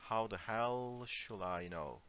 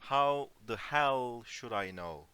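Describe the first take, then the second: First: Dismissive. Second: Annoyed. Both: Shown as a demonstration. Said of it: "Okay, it's more like".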